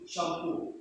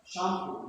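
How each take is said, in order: First: Shampoo with the weight on POO; softly modelled sham-POO in shampoo; stress on last syllable. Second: Shampoo with the weight on SHAM; softly modelled SHAM-poo in shampoo; Filipino everyday pronunciation. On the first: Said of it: "No, it should be shampoo". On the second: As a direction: say "shampoo" the local way, stressing the first syllable. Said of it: "our culture is we pronounce as". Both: Shown as a demonstration.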